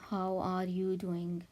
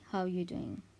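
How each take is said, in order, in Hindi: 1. शब्द 'are' साफ़ बोला जाता है। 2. शब्द 'are' पूरी तरह छोड़ दिया जाता है। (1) "इसको ऐसे नहीं बोलना" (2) "आर की आवाज़ नहीं आती"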